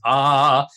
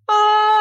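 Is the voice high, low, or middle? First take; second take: low; middle. First: It is a low, thick chest voice. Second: It is a middle voice between both.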